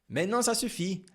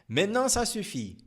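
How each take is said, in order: Both takes have the same delivery.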